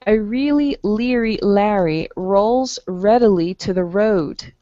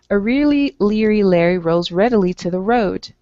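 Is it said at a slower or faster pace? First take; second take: slower; faster. First: It is said at a slower pace. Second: It is said at a faster pace.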